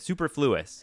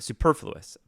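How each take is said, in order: First: It is pronounced as read from the spelling. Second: It is pronounced the usual spoken way. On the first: The speaker calls it wrong. "but I said superfluous" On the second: The speaker calls it right. "I remember using the word"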